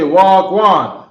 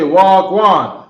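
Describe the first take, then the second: First: The words are reduced and run together. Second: The same.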